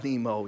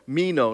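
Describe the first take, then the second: First: The word begins with an n sound. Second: The word begins with an m sound. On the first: The speaker calls it wrong. "I've been saying it wrong all week" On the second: The speaker calls it right. "It's actually Mino"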